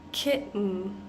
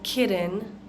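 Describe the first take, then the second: First: The T is swallowed, with no release. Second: The T is a quick tap, as in 'better'. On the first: The speaker calls it right. "we're almost swallowing this T sound" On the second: The speaker calls it wrong. "different from the bitter and better sound because we're not saying kitten"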